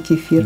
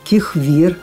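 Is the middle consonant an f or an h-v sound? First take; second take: f; h-v. First: The middle consonant is an f sound. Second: The middle consonant is an h-v sound. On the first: "вместо" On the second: "нет звука «ф»"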